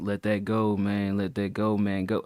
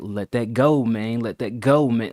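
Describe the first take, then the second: First: It is said flat, without projected inflection. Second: It is said with varied, projected inflection.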